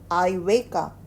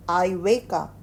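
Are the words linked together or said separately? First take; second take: linked; linked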